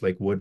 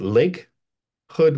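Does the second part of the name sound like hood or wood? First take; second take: wood; hood. First: The second part starts with a w sound. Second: The second part starts with an h sound. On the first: The speaker calls it right. "it's Lake Wood" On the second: The speaker calls it wrong. "which is not how you say it"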